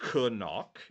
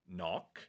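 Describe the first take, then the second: First: The word starts with a K sound. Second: The word starts with no K sound. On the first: The speaker calls it wrong. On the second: The speaker calls it right.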